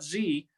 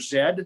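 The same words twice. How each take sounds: First: The letter is said the American way. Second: The letter is said the Canadian way. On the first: This is how others say it. "not Z" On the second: This is how the speaker's own group says it. "We're always going to pronounce the word the letter Z"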